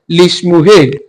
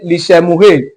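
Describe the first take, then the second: First: No vowel is heard between sh and m. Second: A short vowel is heard between sh and m. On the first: The speaker calls it right. "we are not pronouncing it as what? Lishmuhe" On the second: The speaker calls it wrong. "normally you should say lishemuhe. No, it is not"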